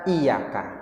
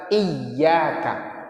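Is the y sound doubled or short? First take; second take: short; doubled. First: The y sound is short, not doubled. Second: The y sound is doubled and held. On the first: The speaker calls it wrong. "jangan pernah baca iyaka nggak pakai tasdid" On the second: The speaker calls it right. "bacaan yang benarnya adalah iyyaka pakai tasdid"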